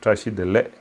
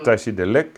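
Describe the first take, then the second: First: The word ends without any k sound. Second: The word ends with an audible k sound. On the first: "d'autres disent Tachidele" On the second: "certains disent Tachidelek ... tu l'entends, le cas"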